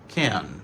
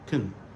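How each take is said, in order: First: The word has a full, clear vowel. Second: The word has a weak, reduced vowel. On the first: "Ça c'est prononciation normale" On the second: "il réduit en can"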